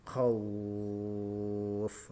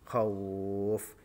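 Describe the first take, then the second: First: The long vowel is held for six beats. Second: The long vowel is held for four beats. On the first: "panjang yang ketiga yaitu tiga alif atau enam harokat" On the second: "dua alif contoh"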